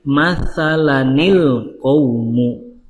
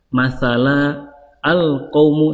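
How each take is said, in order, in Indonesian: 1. Kedua kata menyambung dengan lancar, dengan tambahan bunyi 'ni'. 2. Berhenti setelah kata pertama, tanpa tambahan bunyi n. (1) "disambung ke al-qaumu menjadi masalanil qaumu" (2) "kalau kita berhenti contoh di kata masalah, maka nun kecilnya tidak dibaca"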